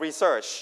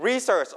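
First: Re-SEARCH, second syllable stressed. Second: RE-search, first syllable stressed. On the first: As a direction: lean on SEARCH in research. (เน้นพยางค์ที่สองของ research) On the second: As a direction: punch the RE in research. (เน้นพยางค์แรกของ research) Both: Shown as a demonstration. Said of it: "stress on the first or second syllable".

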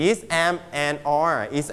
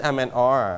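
First: Am, and are is said slowly and deliberately; slow board-reading drill; slow model take. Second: Said in the usual way. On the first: Shown as a demonstration. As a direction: spell out the forms at a dictation pace. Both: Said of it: "นี่ is".

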